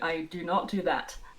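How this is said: It is said with strong feeling. "I can say with feeling"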